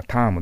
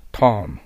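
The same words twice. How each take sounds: First: ターム with a plain Japanese "aa", "taamu"; Japanese katakana pronunciation. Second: Louder ターム with tongue down and throat open, English "term"; English pronunciation of term. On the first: Teacher shows students the wrong way, Japanese katakana pronunciation. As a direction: say ターム as flat katakana "taa-mu". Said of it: "日本語ではタームですけど、それじゃダメですよ". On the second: Teacher models term after coaching, English pronunciation of term. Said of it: "喉の奥をお医者に見せるような感じで". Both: Shown as a demonstration.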